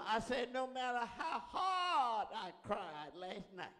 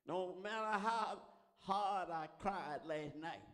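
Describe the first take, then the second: First: Slow, loud preaching shout; shouted repeat. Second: Slow, drawn-out preaching line; measured testimony. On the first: Preacher testifying of last night's crying, shouted and drawn out. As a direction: cry out HARD, long and loud. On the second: Preacher testifying of last night's crying, slow and held back. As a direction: stretch the words, holding back the full force. First take, before louder repeat. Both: Real, not acted.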